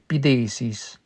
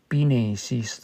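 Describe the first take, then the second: First: The middle consonant is a TH sound. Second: The middle consonant is an N sound.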